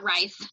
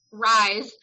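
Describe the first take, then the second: First: "rice" with a hissed S ending; "rice" pronunciation. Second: "rise" with a buzzing Z ending; "rise" pronunciation. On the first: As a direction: say "rice", like the grain. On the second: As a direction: say "rise" firmly, rhyming with eyes. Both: Shown as a demonstration. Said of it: "not rice".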